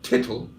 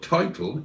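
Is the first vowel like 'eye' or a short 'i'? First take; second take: short i; eye. First: The first vowel is a short 'i' sound. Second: The first vowel is a long 'eye' sound.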